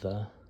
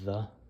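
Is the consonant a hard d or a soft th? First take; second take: soft th; soft th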